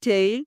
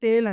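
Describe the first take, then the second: First: The vowel glides from 'e' to 'i'. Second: The vowel is a single pure 'e' sound. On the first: The speaker calls it right. "రెండిటిని కూడా టెయిల్ అనాలి" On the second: The speaker calls it wrong. "మనం చాలా మంది తప్పు చెప్తా ఉంటాము"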